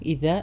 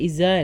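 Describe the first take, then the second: First: The consonant is a voiced th sound. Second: The consonant is a buzzing z sound. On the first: The speaker calls it right. "ദാല് കൃത്യമായി പറയാം" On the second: The speaker calls it wrong. "ഇസ അല്ല"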